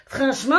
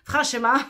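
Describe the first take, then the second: First: Said in the usual way. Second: Franchement in a light mock Belgian accent, a bit louder; a hint of a put-on Belgian accent; fake Belgian accent. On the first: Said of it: "mon accent, euh, revient". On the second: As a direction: slip into a joking Belgian lilt on franchement. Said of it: "puisque je suis pas du tout belge".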